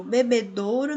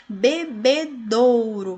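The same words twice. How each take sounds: First: Said in the usual way. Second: Bebedouro said slowly and louder, each syllable spelled out; slow syllable demo. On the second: Shown as a demonstration. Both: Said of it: "nós temos a presença do ditongo aqui no do".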